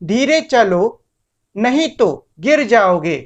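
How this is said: There is a short pause after चलो. The speaker calls it right. "यहां मैंने चलो के बाद में कुछ देर के लिए मतलब मैं रुका"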